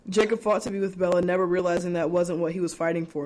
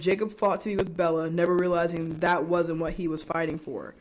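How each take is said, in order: First: It is read at normal speed. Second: It is read more slowly.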